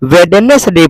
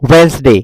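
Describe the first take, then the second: First: The middle 'd' sound and extra syllable are pronounced. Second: The middle 'd' is silent, giving two syllables. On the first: The speaker calls it wrong. "ये बहुत से लोग हैं क्या पढ़ते हैं इसको, वेडनेसडे पढ़ते हैं।" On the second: The speaker calls it right. "वेडनेसडे क्या होता है जी, वेंसडे"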